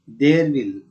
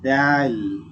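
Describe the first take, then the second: First: Both words are said separately in full. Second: The words are joined into one contracted syllable.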